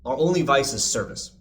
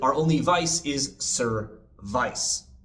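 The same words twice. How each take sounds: First: Service is said normally, ending in a weak 'vis'. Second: Service is forced so its ending sounds like 'vice'.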